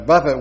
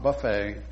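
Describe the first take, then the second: First: It is said like the word for striking. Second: It is said like the word for a food spread. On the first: The speaker calls it right. "which is to strike your body" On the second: The speaker calls it wrong. "not buffet"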